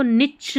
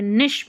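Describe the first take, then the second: First: निच ending in a ch sound; wrong pronunciation. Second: निश ending in a sh sound; correct pronunciation. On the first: Teacher shows learners the mistake, निच with ch. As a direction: misread niche as "nitch", निच. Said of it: "निच नहीं बोलते". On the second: Teacher corrects the word for learners, निश with sh. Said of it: "निश बोलते हैं". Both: Shown as a demonstration.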